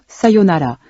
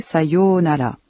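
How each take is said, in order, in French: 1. La deuxième syllabe reste brève. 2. La deuxième syllabe est longue. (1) "prononcé sans accentuer la deuxième syllabe" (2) "Faites bien attention à la prononciation des syllabes longues. C'est le cas de sayonara"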